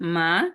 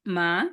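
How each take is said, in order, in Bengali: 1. শব্দাংশটি দুই নম্বর টোনে বলা হয়েছে। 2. শব্দাংশটি দুই নম্বর টোনে বলা হয়েছে।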